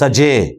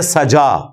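First: The word ends with a fronted 'eh' vowel. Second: The word ends with an open 'ah' vowel. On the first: This is how others recite it. "वो सजे" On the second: This is how we recite it. "हम पढ़ते हैं सजा"

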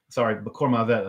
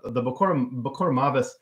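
First: Israeli pronunciation, ending with a t sound. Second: Ashkenazi pronunciation, ending with an s sound.

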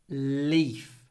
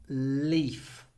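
The two takes are said the same way.

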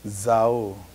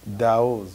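First: The word begins with a z sound. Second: The word begins with a d sound.

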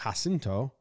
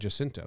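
First: The name begins with a soft J sound. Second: The name begins with a hard J sound. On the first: The speaker calls it wrong. "I would have done a soft J like Jacinto" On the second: The speaker calls it right. "So it's a hard J"

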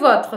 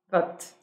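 First: The word ends with a pronounced R sound. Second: The word ends without the R and E. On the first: "E o votre vai virar o quê?" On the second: "Oui, vote"

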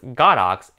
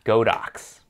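First: The name is split into God and Ox. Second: The name is split into Go and Dox. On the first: The speaker calls it right. "in Chinese they use the characters God and Ox, so technically it's pronounced GODOX" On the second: The speaker calls it wrong. "and not GODOX"

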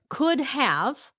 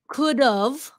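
First: Both words are said fully and separately. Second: The two words are contracted into one.

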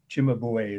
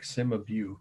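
First: The name is said with an Italian pronunciation. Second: The name is said with an American pronunciation. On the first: The speaker calls it right. "Cimabue is the Italian pronunciation" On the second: The speaker calls it wrong. "I know it looks like Cimabue. That's how they'd say it in Indiana"

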